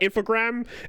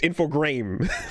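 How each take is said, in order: First: The name ends sounding like 'grams'. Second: The name ends sounding like 'grames'. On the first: The speaker calls it wrong. "it's not grams" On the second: The speaker calls it right. "I say Grames because it's G R A M E S"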